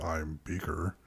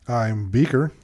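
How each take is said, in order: First: The words are said in a put-on deep voice. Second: The words are said in a normal voice. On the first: "Am I supposed to be, I'm Beaker? ... Why is everyone going like deep voices?" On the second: "And did I do that wrong?"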